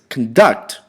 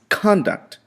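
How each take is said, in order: First: The stress is on the second syllable. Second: The stress is on the first syllable. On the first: It is used as a verb. "As a verb is conduct" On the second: It is used as a noun. "If you use it as a noun"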